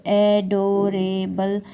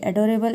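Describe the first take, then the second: First: "adorable" slowly split into four parts; syllable by syllable. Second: Said in the usual way. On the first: Shown as a demonstration. Teacher dividing a word for her viewers, syllable by syllable. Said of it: "four parts में इसको divide करेंगे". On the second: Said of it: "parts करें तो".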